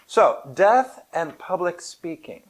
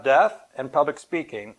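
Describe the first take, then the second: First: "death and public speaking" said slowly, each word weighed, a strong fall on "death"; slow emphatic topic. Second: Said in the usual way. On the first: Shown as a demonstration. Speaker introduces his talk's topic, slow and emphatic.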